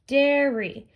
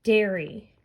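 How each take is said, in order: First: "dairy" louder and higher, DAIR-ee; teacher repeating "dairy" with stretched first syllable; emphasised syllables. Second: Said in the usual way. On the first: Shown as a demonstration. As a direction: lean on the dair of "dairy", holding it a little. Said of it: "If you look at this word". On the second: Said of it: "look at our next one".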